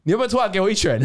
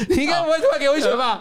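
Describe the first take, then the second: First: Said in the usual way. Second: Higher and quick through laughter; giggling nervous tease; laughing. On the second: Real, not acted. Nervously teasing the co-host about a punch, laughing.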